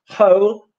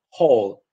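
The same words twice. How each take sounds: First: Whole with a gliding OU, rising; English whole. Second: Whole with a short Polish O, low falling. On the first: Teacher modelling English whole. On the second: Teacher showing the Polish version. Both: Shown as a demonstration. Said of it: "no difference between".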